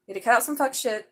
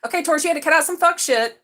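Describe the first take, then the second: First: Said in the usual way. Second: Loud, high stress on fuck; louder emphatic repeat of fuck shit. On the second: Real, not acted. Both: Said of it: "Some fuck shit is what I heard".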